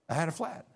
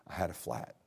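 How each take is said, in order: First: Flat lifted in disbelief, rising at the end; I had a flat, said as a stunned question; stress on flat. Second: Said in the usual way. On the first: Shown as a demonstration. Pastor repeating the bad news in disbelief.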